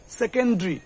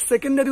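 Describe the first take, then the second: First: সেকেন্ডারি squeezed to "se-ken-dri"; three-syllable "sekendri" for সেকেন্ডারি; correct pronunciation. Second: সেকেন্ডারি in four syllables, "se-ken-da-ri"; full "da" before the ri in সেকেন্ডারি; wrong pronunciation. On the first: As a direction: drop the vowel before ri in সেকেন্ডারি. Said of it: "উচ্চারণটা কি হবে". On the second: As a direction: spell out সেকেন্ডারি as "sekendari". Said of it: "সেকেন্ডারি উচ্চারণ নয়". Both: Shown as a demonstration.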